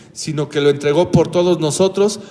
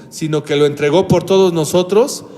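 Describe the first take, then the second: Both takes have the same delivery.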